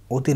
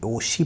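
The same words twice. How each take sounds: First: ओती said with a t; wrong pronunciation. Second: ओशी, softer, with sh in place of t; correct carry-over pronunciation. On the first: Teacher saying we will not read it so, wrong pronunciation. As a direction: put a t in the middle: ओती, o-ti. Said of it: "नहीं पढ़ेंगे". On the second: Teacher closing on the form we will read, correct carry-over pronunciation. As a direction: say ओशी as o-shi. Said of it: "पढ़ेंगे इसको". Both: Shown as a demonstration.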